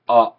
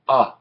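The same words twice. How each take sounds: First: The open vowel is held for longer. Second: The open vowel is held briefly. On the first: "we write it three times and say it longer" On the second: "When it's written once, it says uh"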